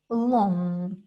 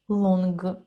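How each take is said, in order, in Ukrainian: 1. Слово закінчується носовим звуком, без «г». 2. Слово закінчується твердим звуком «г». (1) "Вона вимовляється, начебто видуваючи повітря через ніс" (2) "вона не вимовляється як «сонг», «лонг»"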